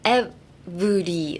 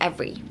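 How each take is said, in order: First: The middle 'ver' part is fully pronounced. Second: The middle 'ver' part is squeezed together. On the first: The speaker calls it wrong. "they pronounce the V E R too much" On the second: The speaker calls it right. "ignore the E"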